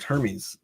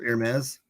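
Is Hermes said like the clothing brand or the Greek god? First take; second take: Greek god; clothing brand. First: It is said the way the Greek god is. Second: It is said the way the clothing brand is. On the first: It names the Greek figure. "the like Greek figure" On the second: It names the clothing line. "that clothing line called Hermes, how people pronounce it"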